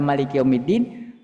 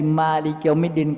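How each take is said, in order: First: The first vowel of Maliki is short. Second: The first vowel of Maliki is long. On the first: God is the king of the Day of Judgment. "baca pendek" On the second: God is the owner of the Day of Judgment. "yang kita panjang"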